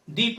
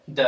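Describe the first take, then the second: First: "the" with a long ee, "thee"; correct pronunciation. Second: "the" with a schwa, "thuh"; wrong pronunciation. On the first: Teacher giving the rule, "the" as "thee". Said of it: "the पढ़ा जाता है". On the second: Teacher showing what to avoid, "the" as "thuh". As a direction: say "the" as short "thuh". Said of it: "the नहीं पढ़ा जाता है". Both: Shown as a demonstration.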